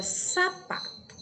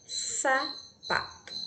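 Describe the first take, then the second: First: Said in the usual way. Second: "Sapato" drawn out slowly as Sa-pato; syllable by syllable. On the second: Shown as a demonstration. Teacher breaking down "Sapato" for the class, syllable by syllable. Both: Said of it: "Se formos analisar cada letrinha".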